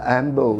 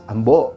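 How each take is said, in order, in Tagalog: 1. Nasa unang pantig ang diin. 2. Nasa pangalawang pantig ang diin. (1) "it's not, ah, Ambo" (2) "accent on the second syllable"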